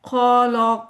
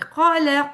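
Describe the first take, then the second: First: The word is read in a dull, gloomy tone. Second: The word is read in a bright, happy tone. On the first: The speaker calls it wrong. "No ऐसे नहीं पढ़ना हमने।" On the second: The speaker calls it right. "Happy."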